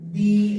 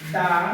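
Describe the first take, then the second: First: The word is said with a long 'ee' vowel. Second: The word is said with a short 'uh' vowel. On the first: The next word starts with a vowel. "উচ্চারণ হবে দি" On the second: The next word starts with a consonant. "তাহলে এটার pronunciation হবে দা"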